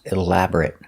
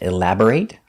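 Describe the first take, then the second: First: The final syllable is a reduced 'it' sound. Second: The final syllable has a full 'ate' vowel. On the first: The word is used as an adjective. "for an adjective" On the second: The word is used as a verb. "like a verb"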